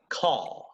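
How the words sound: The final R is dropped, British style. "but for a British person, it is call"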